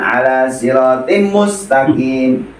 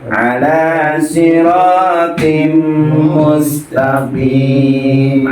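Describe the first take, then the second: First: The mim is short, with no held nasal hum. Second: The mim is doubled and held with nasal hum. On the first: The speaker calls it wrong. "bukan ala siratim mustaqim" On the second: The speaker calls it right. "seperti itu bacanya"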